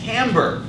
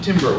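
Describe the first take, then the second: First: It is said like tamber. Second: It is said like the word timber. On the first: The speaker calls it right. "It is timbre" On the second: The speaker calls it wrong. "It is actually not timber"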